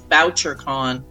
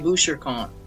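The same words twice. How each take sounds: First: The name has a flat American pronunciation. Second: The name has a French-influenced pronunciation. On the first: "the Americans always correct me and say it's Boucher-con because that's how he pronounced it" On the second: "so I'm Canadian, so I say Boucher-con"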